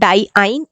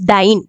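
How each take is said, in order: First: The word is said as two syllables, die-ine. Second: The word is said as one syllable, dine. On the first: The speaker calls it wrong. "डाइआइन is not correct pronunciation" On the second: The speaker calls it right. "Correct pronunciation is डाइन"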